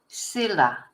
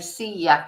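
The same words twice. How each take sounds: First: The name is said with an English pronunciation. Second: The name is said with a Spanish pronunciation. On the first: The speaker calls it wrong. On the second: The speaker calls it right. "that's how you pronounce it in Spanish"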